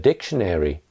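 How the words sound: It is said with four syllables, American style. "in American English, for instance, you would hear a dictionary. Those are more syllables"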